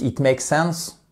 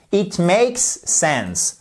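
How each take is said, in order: First: IT MAKES SENSE quick, the s of MAKES swallowed; "makes sense" merged, no separate final s on MAKES; run-together mispronunciation. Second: IT MAKES SENSE very slow, with a long hissed S ending MAKES; slow, exaggerated "makes-s sense", both s sounds heard; careful pronunciation. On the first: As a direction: say "it make sense" in one run. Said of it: "Sauf que si vous dites". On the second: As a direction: stretch the s of "makes" before "sense". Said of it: "Osez cette prononciation". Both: Shown as a demonstration.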